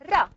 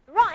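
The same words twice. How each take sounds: First: The tongue tip taps the ridge once. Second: The tongue curls backwards without tapping. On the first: "The tip of the tongue is going to touch the alveolar ridge" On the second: "Your tongue is curled backwards"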